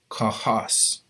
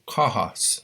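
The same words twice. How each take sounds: First: The stress is on the second syllable. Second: The stress is on the first syllable. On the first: The speaker calls it wrong. "not kahas" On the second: The speaker calls it right. "the emphasis is going to be on that vowel"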